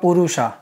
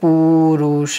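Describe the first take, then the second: First: The first vowel is kept short. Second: The first vowel is held long. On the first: The speaker calls it wrong. "ह्रस्व अर्थात संक्षिप्त लघु वर्ण होगा" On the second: The speaker calls it right. "पू लंबा के बोलना चाहिए"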